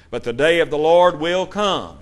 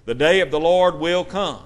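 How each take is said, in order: First: "Lord" stressed, falling tune; first reading with the weight on "Lord". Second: "day" stressed, falling tune. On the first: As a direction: read it as scripture, landing on "Lord". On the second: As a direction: hammer "day" home as the point. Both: Shown as a demonstration. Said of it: "emphasize our point".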